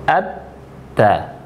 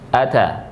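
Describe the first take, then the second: First: The t sound is held long and pressed. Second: The t sound is short and light. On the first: "Kalau bertasdid atta" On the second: "Kalau tanpa tasdid itu dibaca ata"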